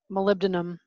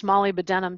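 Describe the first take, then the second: First: Said in the usual way. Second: Molybdenum said as "molly-buh-DEN-um"; alternative regional pronunciation. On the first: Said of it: "pronounced molybdenum". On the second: Shown as a demonstration. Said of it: "depending on what country you learn chemistry in".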